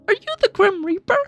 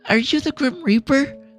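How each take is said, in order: First: A strained, high-pitched child voice is used. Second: A softer, quieter child voice is used. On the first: The speaker calls it wrong. "It sounds so bad" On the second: The speaker calls it right. "I'll just try to do like a quieter kid"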